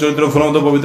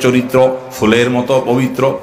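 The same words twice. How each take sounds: First: It is said fast and in a rush. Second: It is said slowly and calmly. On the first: The speaker seems to have lost his mind. The speaker calls it wrong. "এত হুলস্থুল করলে" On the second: The listener is pleased by the praise. The speaker calls it right. "সুন্দর করে বলো"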